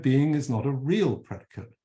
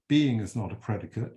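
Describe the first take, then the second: First: "real" picked out as the correcting word; stress on REAL. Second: Said in the usual way. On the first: Shown as a demonstration. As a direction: lean on "real", then let "predicate" fall away. Corrects misquote by stressing added word.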